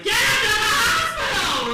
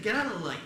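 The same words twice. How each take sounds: First: High, very loud mock-mother scream; panicked, full-volume order; mothers yelling. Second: Said in the usual way. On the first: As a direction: shriek it like an outraged mother. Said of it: "Mothers are like". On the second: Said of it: "We're like, Nah".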